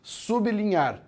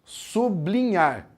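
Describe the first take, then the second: First: Higher, slow "Sublinhar", pausing on the B: SUB-linhar; pronúncia certa. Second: Slow "sublinhar" with BL run together: su-BLI-nhar; pronúncia errada. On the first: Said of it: "Você para no B e depois continua". ("Sublinhar" devagar, parando no B: sub(i)-linhar) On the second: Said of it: "É errado falar assim". ("sublinhar" com o BL junto: su-bli-nhar, devagar) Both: Shown as a demonstration.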